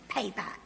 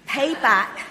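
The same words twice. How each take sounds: First: Said in the usual way. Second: Forceful shout, much louder; loud demand. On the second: A narrator's reading. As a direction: bark the order at the debtor. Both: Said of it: "he demanded".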